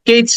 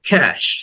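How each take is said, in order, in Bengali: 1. শব্দটি ch শব্দে শেষ হয়। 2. শব্দটি sh শব্দে শেষ হয়। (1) "কেউ হয়তো বলে থাকো কেচ না" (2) "এরপরে স সাউন্ড"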